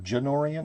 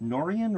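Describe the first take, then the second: First: The name begins with a J sound. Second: The name begins with an N sound. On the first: "Janorian is a soft G" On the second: "is that a silent G"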